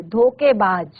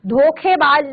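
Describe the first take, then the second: First: धोखेबाज with plain k, "dhoke-baaj"; common mispronunciation. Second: धोखेबाज with aspirated kh, "dhokhe-baaj"; careful pronunciation. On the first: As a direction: drop the breath from kh in धोखेबाज. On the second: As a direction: breathe out on the kh in धोखेबाज. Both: Shown as a demonstration. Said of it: "धोखेबाज नहीं कहते".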